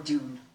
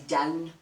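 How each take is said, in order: First: The vowel rhymes with the vowel in noon. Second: The vowel rhymes with the vowel in noun. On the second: "like noun"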